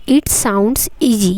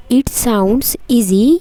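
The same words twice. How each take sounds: The two takes are said the same way.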